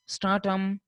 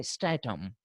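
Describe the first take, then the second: First: "stratum" said STRAH-tum, open ah; British pronunciation. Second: "stratum" said STRAY-tum or STRAT-um, fronted vowel; American pronunciation. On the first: Teacher showing the British form, "stratum" with ah. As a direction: open the first vowel of "stratum" to ah. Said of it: "a sound versus a sound". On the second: Teacher showing the American form, "stratum" with fronted a. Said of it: "they say stratum". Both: Shown as a demonstration.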